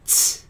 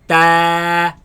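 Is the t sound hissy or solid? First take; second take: hissy; solid. First: The t has a sharp hissing release. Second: The t is plain with no hissing release. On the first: The speaker calls it wrong. "produce a sharp sound such as ts" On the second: The speaker calls it right. "place the tongue at the roots of the upper teeth"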